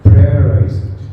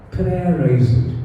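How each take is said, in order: First: "prayerize it" said firm and louder; emphatic prayerize. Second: "Prayerize it" drawn out slowly and softer; slow soft echo of "Prayerize it"; slow, softer repeat. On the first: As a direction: hit "prayerize" with weight. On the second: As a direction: let "Prayerize it" sink in, slow. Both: Shown as a demonstration. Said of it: "The second P is".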